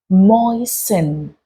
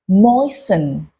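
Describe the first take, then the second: First: The T sound is left silent. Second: The T sound is left silent.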